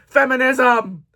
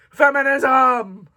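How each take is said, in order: First: Loud, falling cheer of "Feminism!"; mock cheer. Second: "Feminism!" drawn out loud and slow; slow mock cheer. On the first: Booktuber mock-cheers her book pick. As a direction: shout "Feminism!" like a rally cry. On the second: Booktuber repeats the cheer slowly. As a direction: stretch the cheer out.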